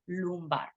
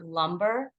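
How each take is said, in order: First: The first vowel sounds like 'oo'. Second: The first vowel sounds like English 'uh'. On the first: The speaker calls it right. "So the O kind of sound with two U's" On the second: The speaker calls it wrong. "it's not lumbar"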